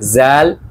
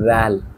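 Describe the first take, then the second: First: It begins with a 'j' sound. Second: It begins with a soft 'th' sound. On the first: The speaker calls it wrong. "আমরা যদি বলি জাল তাহলে কিন্তু হবে না" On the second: The speaker calls it right. "আমাদের বলতে হবে হচ্ছে রাল"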